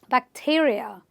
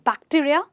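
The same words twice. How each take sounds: First: The stress is right before the -ia ending. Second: The stress is not before the -ia ending. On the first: The speaker calls it right. "stress on the syllable right before this suffix" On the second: The speaker calls it wrong. "not bacteria"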